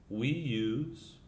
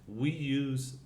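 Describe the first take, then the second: No difference in how they are said.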